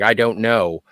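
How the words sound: It is said inwardly, as if to oneself. The speaker is admitting it privately. "one is like a to themselves"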